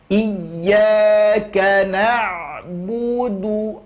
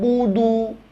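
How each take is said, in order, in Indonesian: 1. Bunyi b dan d itu tipis dan ringan. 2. Bunyi b dan d itu tebal dan berat. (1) "Ah, seperti itu" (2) "Jangan budu"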